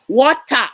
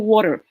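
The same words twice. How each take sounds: First: It is said in a British accent. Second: It is said in a North American accent.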